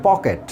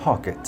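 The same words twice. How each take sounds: First: Said in the usual way. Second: "পকেট" opened with a puffed P, like ফকেট; aspirated P. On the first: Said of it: "এইভাবে উচ্চারণ করি". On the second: Shown as a demonstration. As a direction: say "পকেট" with a breath burst on P. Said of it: "এটার উচ্চারণটা হচ্ছে". ("পকেট"-এর প হাওয়া ছেড়ে ফ-এর মতো)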